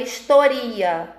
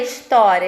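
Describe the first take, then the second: First: Historia stressed on RI, not on TÓ; mispronounced historia, stress on the second-to-last syllable; wrong stress on historia. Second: Said in the usual way. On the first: Shown as a demonstration. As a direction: say historia as his-to-RI-a. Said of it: "É uma coisa que não faz sentido". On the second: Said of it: "Por exemplo, história".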